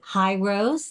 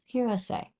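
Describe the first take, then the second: First: The name sounds like 'high rose'. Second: The name sounds like 'hero say'. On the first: The speaker calls it wrong. "Is it High Rose? The answer is no" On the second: The speaker calls it right. "It's Hero Say"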